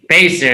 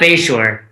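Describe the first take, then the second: First: The second syllable sounds like 'ser'. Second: The second syllable sounds like 'shore'. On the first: The speaker calls it right. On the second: The speaker calls it wrong.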